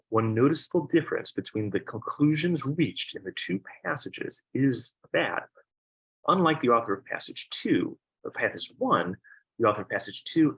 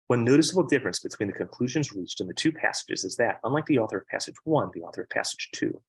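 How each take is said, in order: First: It is read a little more slowly. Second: It is read quickly, under pressure.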